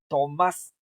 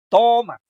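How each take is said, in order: First: "Tomás" with the final syllable stressed; stress on the last syllable. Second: "Toma" with the O punched high and loud; "Toma" with the first syllable stressed, high and loud. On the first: Teacher giving the other word, stressed at the end. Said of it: "En cambio, el otro". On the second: Teacher showing the stressed syllable on the O. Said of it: "la sílaba tónica está en la O". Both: Shown as a demonstration.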